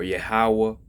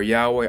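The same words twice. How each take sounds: First: "Yahweh" said slowly as yeh-HA-wah; "Yahweh" with an open -wah ending; three-syllable pronunciation. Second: "Yahweh" said as YAH-way; "Yahweh" with a -way ending; two-syllable pronunciation. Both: Shown as a demonstration. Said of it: "different pronunciations of the holy name".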